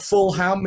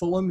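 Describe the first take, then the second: First: The second syllable is said as a full 'ham'. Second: The second syllable is reduced to a weak 'um'. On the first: The speaker calls it wrong. "It's not like a packet of ham that's full" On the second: The speaker calls it right. "it's just Fulham"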